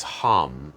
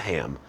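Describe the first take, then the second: First: Hum not ham. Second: The mistaken ham, quieter; wrong vowel ham. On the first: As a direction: hum with an uh vowel, like the word hum. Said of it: "the mantra sound for the throat chakra is hum". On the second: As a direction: ham with the a of cat, softly. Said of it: "not ham". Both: Shown as a demonstration.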